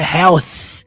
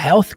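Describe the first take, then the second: First: It ends with a soft th sound. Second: It ends with a hard t sound. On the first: "Ele não fala isso" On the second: "ele fala health com som de T"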